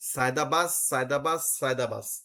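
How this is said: The words run together and the final d becomes s. It lets the caller keep calling without stopping. "সে টানা পড়তে পারতেছে"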